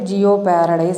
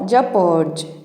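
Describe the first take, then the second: First: The start is pronounced as two syllables, jee-oh. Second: The start is pronounced as one syllable, jep. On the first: The speaker calls it wrong. "జనరల్గా మనం ఇది ఈ పదం యొక్క pronunciation తప్పు చేస్తూ ఉంటాం" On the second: The speaker calls it right. "ఈ యొక్క శబ్దం అనేది ఇక్కడ సైలెంట్ అనమాట"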